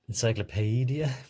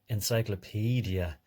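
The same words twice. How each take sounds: First: The two middle vowels are sounded out separately. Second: The two middle vowels blend into one sound. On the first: The speaker calls it wrong. "don't labour it like that" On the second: The speaker calls it right. "blend them into each other and say encyclopedia"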